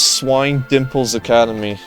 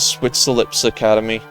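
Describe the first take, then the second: First: The name sounds like 'Swine Dimples'. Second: The name sounds like 'Switzerlips'. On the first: The speaker calls it right. "But no, it's Swine Dimples Academy" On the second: The speaker calls it wrong. "I used to pronounce it as Switzerlips Academy"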